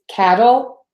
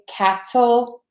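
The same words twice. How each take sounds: First: The middle sound is a quick D-like flap. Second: The middle sound is a crisp, released T. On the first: The speaker calls it right. "we would say the D, or the flap T" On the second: The speaker calls it wrong. "So we don't say"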